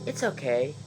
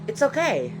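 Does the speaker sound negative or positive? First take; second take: negative; positive. First: It is said in a negative, unimpressed tone. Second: It is said in a positive, pleased tone. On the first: The speaker does not really like it. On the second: The speaker likes it.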